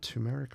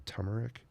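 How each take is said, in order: First: Turmeric said as "TOO-meric"; first pronunciation variant. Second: Turmeric said as "TUM-eric"; second pronunciation variant. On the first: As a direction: say turmeric with a long "oo" in the first syllable. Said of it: "is it called turmeric or turmeric". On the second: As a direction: say turmeric with a short "uh" in the first syllable. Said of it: "However you say it". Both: Shown as a demonstration.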